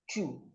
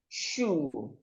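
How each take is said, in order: First: The word begins with a forceful ch sound. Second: The word begins with a soft sh sound. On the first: The speaker calls it wrong. "most times you would hear people call this particular word chew" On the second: The speaker calls it right. "you have shoe"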